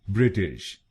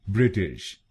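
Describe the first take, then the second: Both takes have the same delivery.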